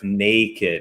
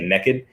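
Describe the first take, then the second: First: It is said in a standard accent. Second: It is said with a Southern twang.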